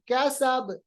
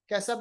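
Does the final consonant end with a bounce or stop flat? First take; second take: bounce; flat. First: The final consonant ends with an echoing bounce. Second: The final consonant stops flat without a bounce. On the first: The speaker calls it right. "आखिर के हरफ को साकिन बनाएंगे" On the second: The speaker calls it wrong. "कैसब नहीं"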